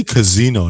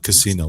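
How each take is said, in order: First: "casino" with a buzzing Z in the middle; voiced Z in "casino". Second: "casino" with a hissed S in the middle. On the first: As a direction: say "casino" as ka-ZEE-no. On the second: Retold or imitated. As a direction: say "casino" as kuh-SEE-no. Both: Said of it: "you say casino, not casino".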